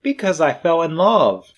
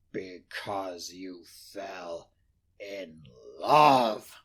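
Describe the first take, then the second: First: Louder, earnest declaration; sincere answer. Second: Low, slow, scornful growl; mock his words with a growl; growled mockery. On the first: Acted. Nephew explaining his marriage to Scrooge, sincere. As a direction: say it openly, with feeling. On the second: Scrooge mocking his nephew's reason, low growl. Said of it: "growled Scrooge".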